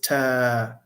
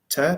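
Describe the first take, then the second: First: The vowel is long. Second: The vowel is short.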